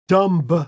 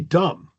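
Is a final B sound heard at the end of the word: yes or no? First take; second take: yes; no. First: The final B sound is pronounced. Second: The final B sound is silent. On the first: "particularly when it's at the end" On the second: "It's easier to say dumb"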